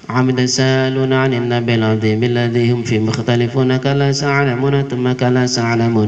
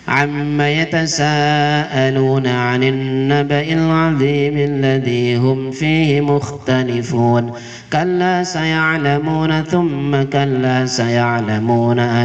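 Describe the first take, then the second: First: It is recited at a very fast pace. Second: It is recited at a medium, flowing pace. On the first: "Hadir itu satu setengah menit satu halaman" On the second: "tadwir lebih cepat. Cepat disambung-sambung ya"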